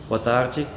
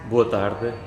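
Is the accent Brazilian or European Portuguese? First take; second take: Brazilian; European Portuguese. First: It is said in a put-on Brazilian accent. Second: It is said in a European Portuguese accent.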